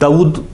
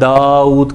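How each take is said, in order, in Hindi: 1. लंबे स्वर को छोटा किया जाता है। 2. लंबे स्वर को खींचा जाता है। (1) "दाऊद कहना गलत है" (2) "दाऊद कहना ठीक है"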